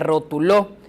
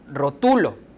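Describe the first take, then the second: First: The stress is on the last syllable. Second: The stress is on the middle syllable. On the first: It is a past-tense form of the verb to label. "Y si tuviera acento en la última O" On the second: It is a present-tense form of the verb to label. "como está escrita, es rotulo"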